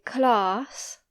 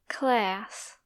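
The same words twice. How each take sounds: First: CLASS said clahss, with a long open vowel; slow British class with an ah. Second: CLASS with a front vowel, as in cat; slow American class with a flat-cat A; American short A. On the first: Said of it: "In British English, we say class". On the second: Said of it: "In American English, they say class". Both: Shown as a demonstration.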